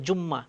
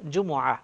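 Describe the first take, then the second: First: It is said as two syllables with a doubled m. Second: It is said as three syllables ending in h. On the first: The speaker calls it wrong. "জুম্মা শব্দ বলাটা ঠিক হবে না" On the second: The speaker calls it right. "আরবিতে বলা হচ্ছে জুমুআহ"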